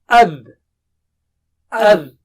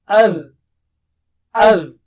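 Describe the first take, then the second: The two takes are said the same way.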